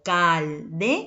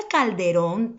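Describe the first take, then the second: First: "calderón" broken into cal, de, rón, with pauses; syllable by syllable. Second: Said in the usual way. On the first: Shown as a demonstration. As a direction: sound out "calderón" in three separate syllables, stress on the last. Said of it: "mayor fuerza de voz". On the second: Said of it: "Última sílaba, mayor fuerza de voz".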